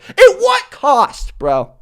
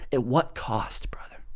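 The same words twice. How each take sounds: First: Very high, very slow, stretched-out plea; dramatic question. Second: Breathy whispered echo, much softer. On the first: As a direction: ask it like a grand tragic hero. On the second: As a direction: whisper it as an ominous afterthought. Repeated as hushed echo. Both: Acted.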